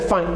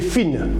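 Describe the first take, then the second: First: The vowel is a gliding 'eye' sound. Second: The vowel is a short 'ee' sound. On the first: This is the English reading of the word. "ici, je dirais fine" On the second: This is how a French reader would read it. "En français, j'aurais dit fish et fine"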